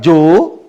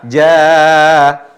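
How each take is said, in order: First: The long vowel is heavy and sounds like O. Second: The long vowel is light and sounds like A. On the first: The speaker calls it wrong. "Ja tidak dibilang jo. Tidak ada mirip suara O" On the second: The speaker calls it right. "Bukan mirip O, tapi A. Intonasi panjangnya alif menjadi tipis"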